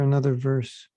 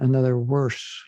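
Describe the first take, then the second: First: It is said in the speaker's plain accent. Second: It is said in an imitated Indian accent.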